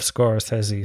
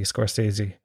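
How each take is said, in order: First: "Scorsese" with a short e, skor-SEZ-ee; affected film-buff pronunciation. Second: Said in the usual way. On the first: Shown as a demonstration. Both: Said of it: "I say Martin Scorsese like an absolute arsehole".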